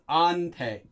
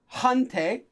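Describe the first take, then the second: First: It begins with a vowel, no h sound. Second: It begins with a clear h sound. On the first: The speaker calls it right. "this is actually pronounced as ante" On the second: The speaker calls it wrong. "So it's never a hante"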